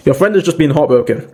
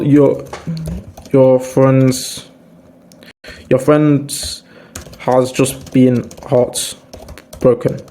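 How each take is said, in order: First: Said in the usual way. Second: Gentle sympathetic tone. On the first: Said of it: "different tone of voice". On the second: Shown as a demonstration. Comforting a heartbroken friend, slow and gentle. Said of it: "speak to them with a different tone of voice".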